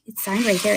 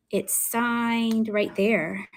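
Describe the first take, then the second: First: Said in the usual way. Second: "signed" stretched out long, very slow; slow, lingering "signed"; drawn-out showing off. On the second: Real, not acted. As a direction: linger on "signed" while pointing it out. Showing a signature, drawing it out.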